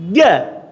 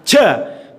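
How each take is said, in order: First: The consonant is held, with no breath escaping. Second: The consonant is released with breath escaping. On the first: The speaker calls it right. "Prakteknya seperti ini" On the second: The speaker calls it wrong. "kesalahan yang banyak terjadi ketika mengucapkan jim itu ada sedikit nafas yang terlepas"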